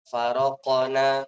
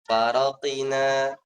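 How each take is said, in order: First: An 'a' vowel is heard after the q. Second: An 'i' vowel is heard after the q. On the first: "tidak menyerupai harokat fathah ... Ini nggak boleh" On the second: "Nggak boleh"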